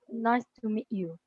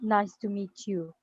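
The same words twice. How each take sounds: First: The T in meet is not pronounced. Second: The T in meet is clearly pronounced.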